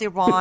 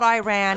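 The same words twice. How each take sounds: First: It is said with a non-American pronunciation. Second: It is said with an American pronunciation. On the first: The speaker calls it right. "it's Iran" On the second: The speaker calls it wrong. "always the American accent because it's not Iran"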